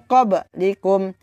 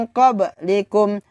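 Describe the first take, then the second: Both takes have the same delivery.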